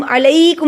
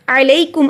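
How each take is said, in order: First: अलैकुम with लै stretched too long; wrongly lengthened vowel. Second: अलैकुम with लै kept short; unlengthened vowel. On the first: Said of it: "अलैकुम नहीं पढ़ना". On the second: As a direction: say अलैकुम without stretching लै. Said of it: "हम लंबा नहीं करेंगे". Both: Shown as a demonstration.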